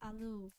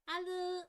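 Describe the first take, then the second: First: The word is said in an adult voice. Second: The word is said in a childlike voice. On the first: "let me sound adult" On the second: "I sound like a four-year-old again"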